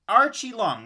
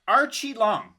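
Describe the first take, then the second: Both takes have the same delivery.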